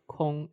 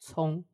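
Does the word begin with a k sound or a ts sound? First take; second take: k sound; ts sound. First: The word begins with a k sound. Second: The word begins with a ts sound. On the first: The speaker calls it wrong. "it's not pronounced like Kong" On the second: The speaker calls it right. "the letter C is pronounced like TS"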